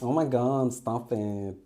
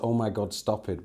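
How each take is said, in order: First: It is performed in an expressive, acted voice. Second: It is read out in a plain voice.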